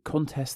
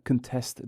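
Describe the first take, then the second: First: The stress is on the first syllable. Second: The stress is on the second syllable. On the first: It is used as a noun. "the noun" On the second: It is used as a verb. "the verb"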